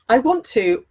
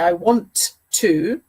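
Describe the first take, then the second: First: "Want to" is reduced and run together. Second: "Want to" is said in full, word by word. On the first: The speaker calls it right. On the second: The speaker calls it wrong.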